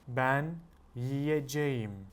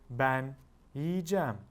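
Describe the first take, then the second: First: The verb is said in its full form. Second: The verb is said in a shortened form. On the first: This is the written form. "This is how you will write it" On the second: This is how it is said in speech. "but when you're speaking, you will say"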